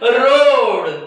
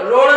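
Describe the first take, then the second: First: The vowel is said long. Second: The vowel is said short. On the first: The speaker calls it right. "थोडा long स्वर" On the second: The speaker calls it wrong. "रोड नाही"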